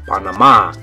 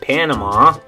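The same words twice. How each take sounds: First: It is said with a Spanish pronunciation. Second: It is said with an English pronunciation. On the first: "But in Spanish, you're going to say Panama" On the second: "In English, we would say Panama"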